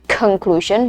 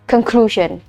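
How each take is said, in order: First: The stress is on the first syllable. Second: The stress is on the second syllable. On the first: The speaker calls it wrong. "penekanannya bukan di conclusion, no" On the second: The speaker calls it right. "tapi di ke yang kedua"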